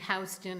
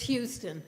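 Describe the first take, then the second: First: The name is pronounced the New York way. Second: The name is pronounced differently from the New York way. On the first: The speaker calls it wrong. "It's only Houston if you're in New York" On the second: The speaker calls it right. "it's Houston"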